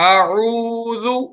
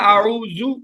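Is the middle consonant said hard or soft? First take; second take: soft; hard. First: The middle consonant is said softly and gently. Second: The middle consonant is said hard and harsh. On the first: The speaker calls it right. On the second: The speaker calls it wrong.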